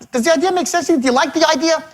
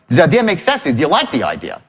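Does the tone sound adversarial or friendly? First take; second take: friendly; adversarial. First: The tone sounds friendly and on your side. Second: The tone sounds confrontational and adversarial.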